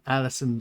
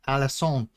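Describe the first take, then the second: First: The name is said the plain English way. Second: The name is said with foreign-sounding elements.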